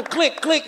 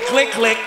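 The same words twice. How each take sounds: First: Said in the usual way. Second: Camera click sounds. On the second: Retold or imitated. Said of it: "That's when they said".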